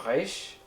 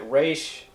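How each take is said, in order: First: Resh with the R made back in the throat; throaty R. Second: Said in the usual way. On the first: Shown as a demonstration. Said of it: "more in the throat like a". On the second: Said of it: "I pronounce it Resh".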